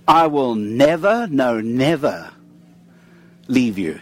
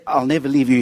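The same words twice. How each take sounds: First: NEVER repeated, the second no, never slowed and drawn out; emphatic double never. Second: Said in the usual way. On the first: Shown as a demonstration. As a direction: lean hard on both nevers, slowing down. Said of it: "He wants to make it as emphatic as possible". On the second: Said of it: "He doesn't say".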